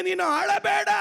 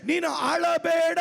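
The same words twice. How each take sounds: First: Louder repeat. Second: Slow declaration. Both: Shown as a demonstration. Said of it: "ಇನ್ನೊಂದು ಸಾರಿ ಹೇಳ್ತೇನೆ".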